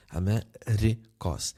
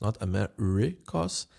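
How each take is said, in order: First: Amerikos slowly, R tapped at the front of the mouth. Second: Amerikos with a throaty back R; wrong R. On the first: Teacher demonstrating the correct front R slowly. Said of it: "it's at the front of my mouth". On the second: Teacher showing the wrong throaty R in Amerikos. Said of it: "Ri, R". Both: Shown as a demonstration.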